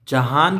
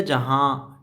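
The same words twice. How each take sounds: First: "जहान" slow, with a clearly sounded n at the end; full final n. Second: "जहाँ" ending in a long nasal aa, no n closure; nasalised final vowel. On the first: Teacher contrasting for learners, full final n in "जहान". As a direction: close "जहान" on a full tongue-tip n. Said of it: "की बजाय जहाँ". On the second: Teacher showing ghunna to learners, nasal ending on "जहाँ". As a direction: let "जहाँ" hum off with only half an n. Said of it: "तो आधे नून की". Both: Shown as a demonstration.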